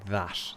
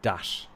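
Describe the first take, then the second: First: It starts with a soft 'th' sound. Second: It starts with a hard 'd' sound. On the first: "they don't say that" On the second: "they say dat"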